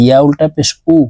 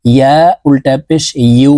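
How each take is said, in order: First: Ending উ said without the y glide; the common mistake, plain উ; wrong ya sound. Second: Ending ইউ with a clear y glide into oo; correct ya sound. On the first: Teacher showing viewers the wrong ইয়া reading. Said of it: "এই ইয়ার উচ্চারণ উ বলে থাকি". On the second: Teacher showing the right ইয়া reading after the mistake. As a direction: glide y into the long oo. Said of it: "ইয়ার উচ্চারণ করতে হবে এইভাবে". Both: Shown as a demonstration.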